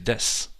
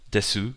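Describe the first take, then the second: First: The final u is dropped. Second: The final u is pronounced.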